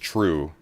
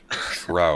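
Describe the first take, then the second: First: The vowel sounds like 'oo' as in 'too'. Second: The vowel sounds like 'ow' as in 'trout'.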